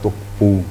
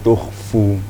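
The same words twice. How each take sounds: First: The last consonant is a closed p sound. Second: The last consonant is a breathy f sound. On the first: The speaker calls it wrong. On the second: The speaker calls it right.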